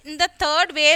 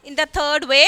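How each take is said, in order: Both takes have the same delivery.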